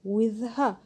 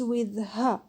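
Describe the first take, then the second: Both takes have the same delivery.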